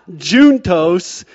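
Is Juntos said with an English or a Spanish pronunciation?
English. It is said with an English-style pronunciation. The speaker calls it wrong. "It's not Juntos"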